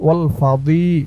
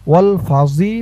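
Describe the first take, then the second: First: The middle consonant sounds like d. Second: The middle consonant sounds like z. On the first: The speaker calls it right. "বলবেন ওয়াল ফাদি" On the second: The speaker calls it wrong. "এখানে ওয়াল ফাজি বলবেন না"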